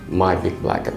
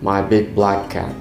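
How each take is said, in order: First: All words are said flat, none stressed. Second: The word black carries the stress.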